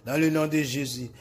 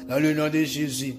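The two takes are said the same way.

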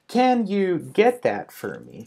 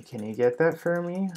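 First: Slow, higher, each word separate; careful slow teaching pace; slow model sentence. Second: Said in the usual way. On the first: Shown as a demonstration. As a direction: spell it out word by word for learners. Model sentence said slowly, then naturally.

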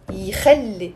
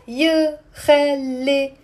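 First: يخلي begun with a clean "ee" sound; correct first vowel. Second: يخلي wrongly begun with a short "yuh"; wrong vowel. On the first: Teacher correcting the mistake, يخلي pronounced with initial "ee". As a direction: say يخلي as "ee-khal-le". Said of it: "It's يخلي". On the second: Teacher showing students the mistake, wrong first vowel in يخلي. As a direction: say يخلي slowly as "yuh-khal-le". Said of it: "It's not يخلي". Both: Shown as a demonstration.

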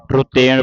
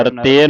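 First: ਰੁਤੇਨ as 'ru-TEN' with retroflex n; short 'u' after r in ਰੁਤੇਨ, tongue curled for n; correct 'u' and retroflex n. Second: ਰੁਤੇਨ without the 'u', 'r-ten'; wrong, no 'u'. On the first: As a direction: say ਰੁਤੇਨ as 'ruteṇ'. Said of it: "ਰੁਤੇਨ ਪੜ੍ਹਨਾ". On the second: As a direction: drop the 'u' after r in ਰੁਤੇਨ. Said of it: "ਰੁਤੇਨ ਨਹੀਂ ਉਚਾਰਨ ਕਰਨਾ". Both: Shown as a demonstration.

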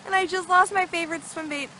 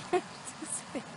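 First: Said in the usual way. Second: Breaking into laughter mid-line; laughing. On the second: Real, not acted. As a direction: laugh through the words. Laughs mid-sentence, then repeats.

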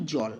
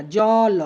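First: Said in the usual way. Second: জল drawn out loudly as জ, ল, vowel after ল; split with final vowel. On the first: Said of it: "আমরা বলি". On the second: Shown as a demonstration. Teacher shows how we don't say জল, split into two open syllables. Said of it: "আমরা এরকম উচ্চারণ করি না".

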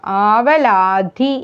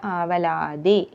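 First: ആവലാധി with a heavy puffed ധ; wrong consonant. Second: ആവലാതി with a light ത, softer; correct consonant. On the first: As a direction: show the mistaken ധ in ആവലാധി. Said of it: "എന്നല്ല". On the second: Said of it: "എന്നേ പറയുള്ളൂ". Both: Shown as a demonstration.

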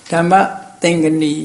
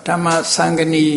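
First: ဓမ္မ သင်္ကနီ as dam-ma thin-ka-ni, falling; ဓမ္မ သင်္ကနီ in Burmese Pali, thin-ka-ni; Burmese reading. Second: ဓမ္မသံ္ကနီ as dhamma-sang-ga-ni; ဓမ္မသံ္ကနီ, international Pali sounds; international reading. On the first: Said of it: "ဒါမြန်မာအသံဖတ်တာ". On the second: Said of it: "နိုင်ငံတကာကျတော့". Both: Shown as a demonstration.

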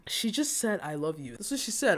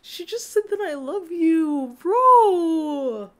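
First: Soft, subdued repeat, sinking at the end; quiet, overcome murmur; moved near tears. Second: High, slow, drawn-out wail; high emotional outburst over a confession; overwhelmed squeal. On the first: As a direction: let the voice drop away tenderly. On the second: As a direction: wail it out, ending loud on a long held word. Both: Real, not acted.

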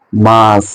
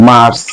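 First: মার্চ with no r, long "maa"; British pronunciation. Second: মার্চ with the r sounded before the final consonant; local Bengali pronunciation. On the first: Teacher showing the silent r, British pronunciation. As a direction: drop the r in মার্চ and draw out the vowel. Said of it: "এই রেপটা ওরা বলে না". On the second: Teacher showing how we say it, local pronunciation. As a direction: say মার্চ as "mars", r pronounced. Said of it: "আমরা বলি". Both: Shown as a demonstration.

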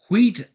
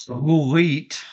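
First: Said in the usual way. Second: "wheat" with a long, breathy "hw" onset; exaggerated "hw". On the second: Game explainer jokingly imitating how someone says it, exaggerated "hw" in "wheat". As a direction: draw out the "h" before the w in "wheat". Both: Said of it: "or as the food would say".

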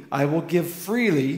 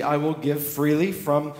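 First: "freely" pressed and set apart; stress on freely. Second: "freely" leaned on, slowed and lifted; stress on freely. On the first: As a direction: repeat "freely" so it sinks in. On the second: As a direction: make "freely" the word they can't miss. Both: Shown as a demonstration. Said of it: "don't miss that".

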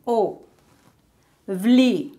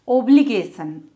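First: Obligation as O, bli, ga, tion with long gaps; four isolated beats for Obligation; syllable by syllable. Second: Said in the usual way. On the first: Shown as a demonstration. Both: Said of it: "how to divide words".

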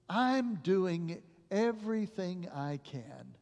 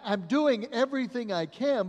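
First: Slow, hushed sorrow; tearful doctor. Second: "I'm doing everything I can" raised, higher, pushed hard on "doing"; urgent raised insistence; doctor pleading. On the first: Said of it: "with tears in his face". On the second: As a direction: plead it loudly, hands up. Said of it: "And the doctor replied". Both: Retold or imitated.

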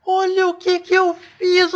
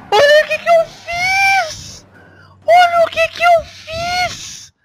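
First: Said in the usual way. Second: Much higher, slow, drawn-out self-mocking wail; mock whiny wail. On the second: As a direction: stretch it out high like a cartoon cry over your own blunder. Gamer mocks own crash.

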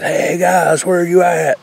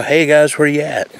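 First: Imitating a full-voiced holler, pitched high up; retelling the loudest shout for the guys; top of lungs yell. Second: Mock call across the woods, pitched up; calling out to the guys, half-hearted; retold yell. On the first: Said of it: "I yelled top of my lungs". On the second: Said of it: "So I stood up and I yelled".

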